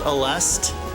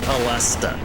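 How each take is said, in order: First: The name ends on the consonant, no vowel. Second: The name ends with an extra 'uh' vowel. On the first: "Without the uh at the end?" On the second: "I pronounce it Alesta"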